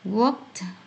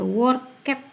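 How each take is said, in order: First: The ending is a plain consonant sound. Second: The ending adds an extra 'it' syllable. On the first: The speaker calls it right. "Yang ada" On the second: The speaker calls it wrong. "tidak ada worked"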